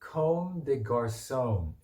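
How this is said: It is pronounced the English way. "영어로 comb, comb de garçon 이렇게 됩니다"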